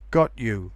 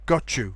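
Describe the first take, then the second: First: The t and y sounds are said separately. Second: The t and y merge into a ch sound.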